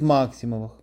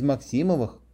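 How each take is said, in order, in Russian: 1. Ударение падает на первый слог. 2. Ударение падает на последующий слог.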